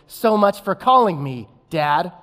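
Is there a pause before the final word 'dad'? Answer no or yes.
yes. There is a short pause before dad. The speaker's father failed to call. The speaker calls it right.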